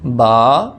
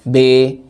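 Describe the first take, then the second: First: The vowel sounds like a. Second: The vowel sounds like e. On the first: The speaker calls it right. "मारूफ पढ़ना है" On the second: The speaker calls it wrong. "ऐसे भी नहीं पढ़ना"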